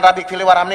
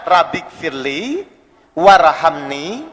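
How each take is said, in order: First: The words are rushed and run together. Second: The words are read calmly with pauses between them.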